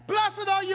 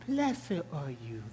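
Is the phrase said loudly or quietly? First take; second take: loudly; quietly. First: The phrase is said loudly and excitedly. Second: The phrase is said quietly and softly. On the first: The greeting is an excited celebration. The speaker calls it right. "It was loud" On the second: The greeting lacks excitement. The speaker calls it wrong. "It did not say"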